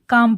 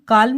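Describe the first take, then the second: First: The L sound is left silent. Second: The L sound is clearly pronounced. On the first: The speaker calls it right. "यहाँ पर एल जो है हमारा silent रहेगा" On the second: The speaker calls it wrong. "इसको हम काल्म नहीं पढ़ेंगे"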